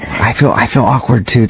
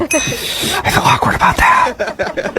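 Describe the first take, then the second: First: Said in the usual way. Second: Slow, breath-only whisper with a laugh. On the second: Pretend. Prank caller confessing to the person fooled, whispering. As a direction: whisper it slowly, like a secret. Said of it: "Why are we whispering?".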